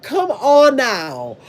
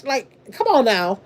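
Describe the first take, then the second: First: Dragged out, very slow come on now; slow exasperated. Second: Said in the usual way. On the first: Real, not acted. Drawn-out exasperated plea to the viewers, very slow. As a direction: stretch every word of come on now.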